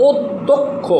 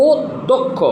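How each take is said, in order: No difference in how they are said.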